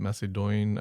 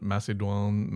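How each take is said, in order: First: Macedon ending in "doyn"; uncertain anglicised pronunciation. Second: Macedon ending like French, "dwan"; uncertain French pronunciation. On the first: Host tries a second guess at a French word, doyn-ending pronunciation. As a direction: say Macedon as mass-a-DOYN, rhyming with coin. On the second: Host tries out an unfamiliar French word, dwan-ending pronunciation. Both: Shown as a demonstration. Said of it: "I don't know how you pronounce it".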